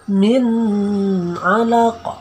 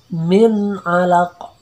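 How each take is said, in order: First: The n sound is held longer than one beat. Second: The n sound is clear and short. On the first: The speaker calls it wrong. "Jangan kita baca min alaq. Nah, jadi tidak boleh" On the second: The speaker calls it right. "yang izhar itu tidak boleh lebih dari satu ketukan"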